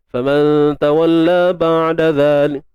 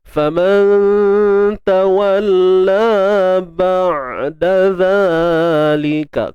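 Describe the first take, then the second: First: The phrase is recited at a fast tempo. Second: The phrase is recited at a slow tempo. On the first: "Tapi kalau baca laju" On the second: "Kalau kita baca tempo yang perlahan"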